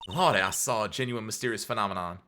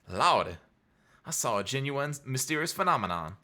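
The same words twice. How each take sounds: First: It is read in the speaker's ordinary accent. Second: It is read in a put-on Southern accent.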